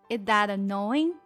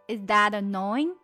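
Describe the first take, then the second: No difference in how they are said.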